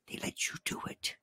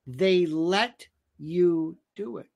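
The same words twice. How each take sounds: First: Near-whisper, much softer; hushed, secretive delivery of a quote. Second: Slow, separated words, softer; measured, drawn-out delivery with pauses; slow, deliberate repeat. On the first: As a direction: whisper it as an aside. Re-enacting transcript, drops to whisper. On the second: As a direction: spell it out word by word. Repeats the line word by word. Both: Acted.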